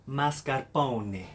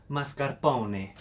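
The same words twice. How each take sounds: The two takes are said the same way.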